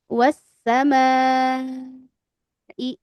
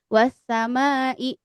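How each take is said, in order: First: The final vowel is stretched out long. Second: The final vowel is held only briefly. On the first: The speaker calls it right. "Maka jadi empat, panjangin lagi. Wasamai I panjang" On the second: The speaker calls it wrong. "Yang penting jangan dua harokat. Jangan wasamai"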